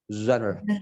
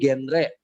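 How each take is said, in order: First: It begins with a soft, blown zh sound. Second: It begins with a hard j sound. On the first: The speaker calls it right. "bukan pakai j, tapi ditiup" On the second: The speaker calls it wrong. "banyak yang salah"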